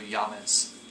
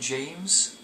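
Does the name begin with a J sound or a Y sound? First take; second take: Y; J. First: The name begins with a Y sound. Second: The name begins with a J sound.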